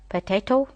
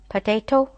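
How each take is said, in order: The two takes are said the same way.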